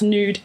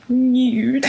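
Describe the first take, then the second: First: Said in the usual way. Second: Nude said as "nyood", with a y-glide; "nyood" with a glide, like a posh speaker. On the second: Shown as a demonstration. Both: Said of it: "When people pronounce nude".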